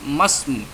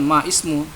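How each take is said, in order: First: The words run together without the 'i' sound. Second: The 'i' of the second word is pronounced separately. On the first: The speaker calls it right. "tapi masmu" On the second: The speaker calls it wrong. "ini bukan ma ismu"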